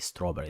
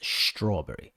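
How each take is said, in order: First: The word begins with a plain 's' sound. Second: The word begins with an 'sh' sound. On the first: The speaker calls it wrong. "You never say strawberry. That's just ridiculous" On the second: The speaker calls it right. "it's strawberry. You have to sh"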